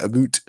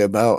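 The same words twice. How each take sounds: First: It is said with a Canadian accent. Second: It is said with an American accent. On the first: "Canadians say about" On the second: "Americans say about"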